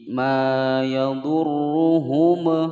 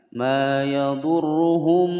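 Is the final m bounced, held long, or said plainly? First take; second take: bounced; held long. First: The final m is bounced with an echo. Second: The final m is held too long. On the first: "salah ya" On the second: "terlalu lama juga salah"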